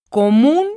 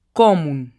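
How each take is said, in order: First: Común with the last syllable MÚN pushed up and louder, rising; teacher demo: Común, stress on MÚN; stressing the tonic syllable. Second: Común said lower with a falling tune, stress on MÚN; teacher demo: común, falling, stress on MÚN; stressing the tonic syllable. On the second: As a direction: drop the pitch through común, MÚN stressed. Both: Shown as a demonstration. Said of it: "tiene la sílaba tónica en la última sílaba".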